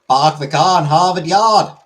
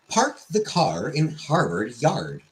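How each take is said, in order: First: The R sounds are dropped, Boston style. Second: The R sounds are pronounced in each word.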